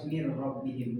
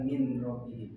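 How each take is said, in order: First: The n merges into the following r sound. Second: The n is kept before the r sound. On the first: The speaker calls it right. "Kenapa harus mir robbihim" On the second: The speaker calls it wrong. "bukan min robbihim"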